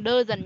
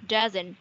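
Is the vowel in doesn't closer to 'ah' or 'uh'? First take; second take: uh; ah. First: The vowel is a flat 'uh' sound. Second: The vowel leans toward an open 'ah' sound. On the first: The speaker calls it wrong. "Các bạn đừng đơ dần nhá" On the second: The speaker calls it right. "Nó sẽ nghiêng về A một chút"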